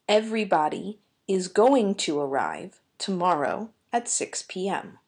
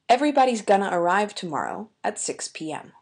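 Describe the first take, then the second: First: Is and going to are said in full. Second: Is and going to are reduced.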